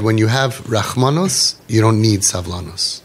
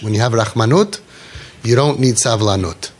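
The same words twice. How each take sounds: First: Rachmanos and savlanos, both ending in an S sound. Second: Rachmanut and savlanut, both ending in -ut; Israeli Hebrew pronunciation. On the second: Teacher restating the saying, Israeli -ut endings on rachmanut and savlanut. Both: Shown as a demonstration. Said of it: "in English".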